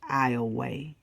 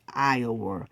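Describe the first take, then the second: First: It is said with the local Louisiana pronunciation. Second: It is said like the name of the state. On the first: The speaker calls it right. "Louisiana pronounced it as Iowa" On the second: The speaker calls it wrong. "It's not pronounced like the state Iowa"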